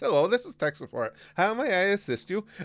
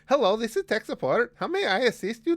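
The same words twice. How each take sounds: First: It is said in the speaker's ordinary accent. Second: It is said in an exaggerated Indian accent.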